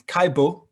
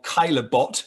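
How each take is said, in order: First: The name is said with a French pronunciation. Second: The name is said with an anglicized pronunciation. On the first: The speaker calls it right. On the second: The speaker calls it wrong.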